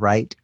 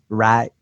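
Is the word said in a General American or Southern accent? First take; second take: General American; Southern. First: It is said without a Southern accent. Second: It is said with a Southern American accent. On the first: The speaker calls it right. "instead of right" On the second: The speaker calls it wrong. "she still had a few little problems with the word right"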